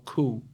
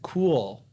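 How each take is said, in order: First: The final L sound is left out. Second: The final L sound is clearly pronounced. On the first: "eles tiram também e falam só cool" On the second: "ao invés de falar é, cool"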